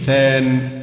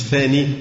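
First: The word ends in a short vowel plus n. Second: The word ends in a long ee vowel. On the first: The speaker calls it right. "يبقى نقول مفعول به ثان" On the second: The speaker calls it wrong. "مش ثاني"

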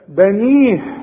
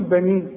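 First: The final h sound is clearly pronounced. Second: The final h sound is dropped. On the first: The speaker calls it right. "إذا وقفت لازم تبين الهي" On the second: The speaker calls it wrong. "مش تقول بني"

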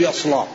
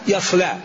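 First: The L sound is heavy and thick. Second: The L sound is light and thin. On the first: "لا يمكن أن يقرأ اللام إلا مغلظ" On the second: "ما يقدر يقرأ يصلى"

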